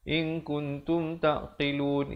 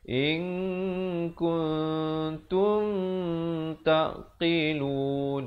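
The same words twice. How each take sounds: First: No nasal syllable is held long. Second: The nasal in tum is held long. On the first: "Jangan kita baca in kuntum taqilun, in kuntum taqilun, itu salah" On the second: "ini jangan dua harakat pula. Jangan pula kita baca"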